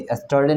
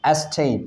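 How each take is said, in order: First: Yesterday with the full "ter-dee" ending; the mistaken full-ending yesterday; wrong yesterday. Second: Yesterday clipped to "yes-te"; spoken classroom yesterday; correct yesterday. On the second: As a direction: say yesterday short as "este". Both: Shown as a demonstration. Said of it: "yesterday नहीं".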